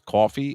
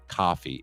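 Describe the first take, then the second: First: It is said with a New Jersey accent. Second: It is said with a general American accent.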